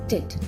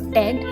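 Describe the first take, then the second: First: The ending is said with a short 'ih' vowel. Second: The ending is said with an 'eh' vowel. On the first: The speaker calls it right. "we pronounce it as tit" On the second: The speaker calls it wrong. "instead of ted"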